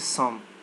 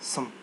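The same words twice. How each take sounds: First: The vowel is said as a full vowel. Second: The vowel is reduced to a weak schwa. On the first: The speaker calls it wrong. "We don't say some" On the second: The speaker calls it right. "we say some"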